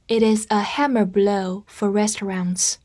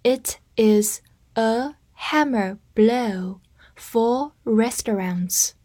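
First: Said in the usual way. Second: Slow, word by word; slow read. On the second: Shown as a demonstration. Teacher reads slowly for learners to repeat after her. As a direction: read it slowly for students to follow. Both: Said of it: "跟着我慢读一遍".

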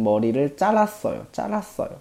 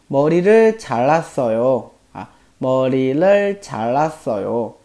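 First: 잘랐어요 with a tense, stressed 잘 like 짤; tensed spoken form. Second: Said in the usual way. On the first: Shown as a demonstration. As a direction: say 잘랐어요 as 짤랐어요, hard first syllable. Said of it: "老喜欢读成". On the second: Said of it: "按道理应该是".

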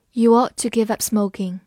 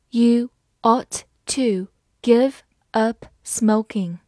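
First: Said in the usual way. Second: Slow, each word set apart; slow read-aloud. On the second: Shown as a demonstration. Teacher reading advice to quit smoking for learners, slowly. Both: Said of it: "好，慢慢来读".

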